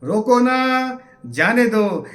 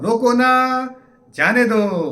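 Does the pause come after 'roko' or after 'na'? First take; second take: after na; after na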